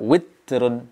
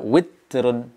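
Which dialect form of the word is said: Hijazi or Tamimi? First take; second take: Tamimi; Tamimi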